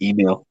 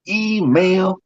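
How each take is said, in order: First: The first syllable 'e' is only lightly emphasized. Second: The first syllable 'e' is strongly emphasized. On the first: This is how it is said now. "Now it's just email" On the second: This is how it used to be said. "they used to put more emphasis on the e"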